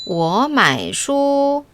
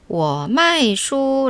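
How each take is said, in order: First: Mai is said with the third tone. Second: Mai is said with the fourth tone. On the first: I buy books. "나는 책을 산다" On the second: I sell books. "나는 책을 판다"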